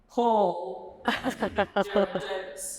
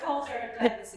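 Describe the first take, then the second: First: It is said in a put-on deep man's voice. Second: It is said in her own normal voice.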